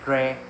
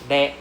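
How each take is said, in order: First: It starts with an English R sound. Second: It starts with a light L-like sound. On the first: The speaker calls it wrong. "not rare, no R sound ah" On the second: The speaker calls it right. "Le, like our L E H ah"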